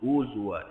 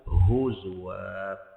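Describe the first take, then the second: First: The h is weak, sounding almost like u. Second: The h is strong and clearly breathed. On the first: The speaker calls it wrong. "Kalau kita tak bagi tenaga kat ha, dia akan huzwa. Jadi u" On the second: The speaker calls it right. "So kita tak nak u"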